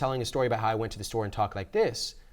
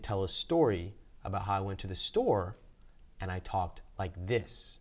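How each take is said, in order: First: It is said at a fast pace. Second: It is said at a slow pace.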